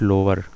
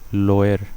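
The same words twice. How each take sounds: First: It sounds like the English word 'lower'. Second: It sounds different from the English word 'lower'. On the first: The speaker calls it wrong. "Not लोअर" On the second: The speaker calls it right.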